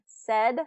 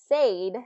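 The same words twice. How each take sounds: First: The vowel is a short eh sound. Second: The vowel follows the spelling, not a short eh. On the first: The speaker calls it right. "it is more of a short eh pronunciation" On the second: The speaker calls it wrong. "the way it's spelled"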